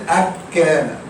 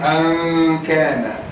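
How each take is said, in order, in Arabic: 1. النون مدغمة تماما في الكاف اللي بعدها. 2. النون مخفية، نطقها نص نطق قبل الكاف. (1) "ولا قلت اك كان" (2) "بقول ان كان"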